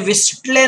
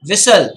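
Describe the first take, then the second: First: A t sound is pronounced in the middle. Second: No t sound is heard in the middle. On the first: The speaker calls it wrong. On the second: The speaker calls it right.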